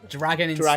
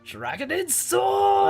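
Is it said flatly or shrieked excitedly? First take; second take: flatly; shrieked. First: It is said flat and low-key. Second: It is shrieked loudly with excitement.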